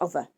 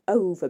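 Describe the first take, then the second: First: The first vowel is short. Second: The first vowel is long. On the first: "make long vowels into short ones" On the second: "make long vowels into short ones"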